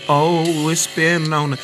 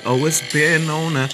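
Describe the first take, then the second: No difference in how they are said.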